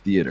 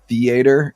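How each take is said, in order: First: Theater is said the non-Southern way. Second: Theater is said the Southern way. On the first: "instead of theater" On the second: "they say uh, theater"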